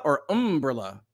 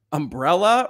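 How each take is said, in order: First: "umbrella" said as UM-brella; first-syllable stress. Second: Said in the usual way. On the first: Shown as a demonstration. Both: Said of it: "I'm gonna now pronounce umbrella that way".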